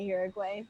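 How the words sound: Uruguay is said with an American English pronunciation. "Americans say Uruguay"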